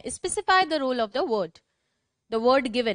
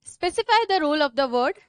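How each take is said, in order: First: Slow, spaced repeat of the dictation. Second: Slow dictation, words spaced apart. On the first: Teacher repeating the dictation for slow writers. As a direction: read it out slowly again for the writers. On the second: Teacher dictating the definition to her class. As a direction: spell it out at writing speed. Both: Shown as a demonstration.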